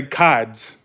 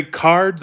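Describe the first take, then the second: First: "cards" with the R dropped; New England "cards", broad vowel and no R; Northern pronunciation. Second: Said in the usual way. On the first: Retold or imitated. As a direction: say "cards" as "cahds". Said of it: "When they say cards". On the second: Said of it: "they say cards".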